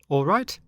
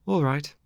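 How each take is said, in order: First: "All right" pitched high, rising at the end; eager question on "All right". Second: "All right" falling at the end, as an answer; higher-voiced consent, "All right" closing downward; agreeing ALL RIGHT. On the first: Acted. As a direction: check for agreement with a lifted "All right". Pinocchio asks his friend to agree.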